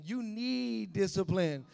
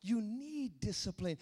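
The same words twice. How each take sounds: First: "need" held long and slow, a little louder; stress on need. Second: Said in the usual way. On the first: Shown as a demonstration. Preacher tells the congregation they need discipline, stressing "need". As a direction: lean hard on "need".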